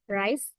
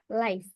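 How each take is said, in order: First: It is said with a British accent. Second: It is said with a Korean accent. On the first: "and in British" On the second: "in Korean pronunciation"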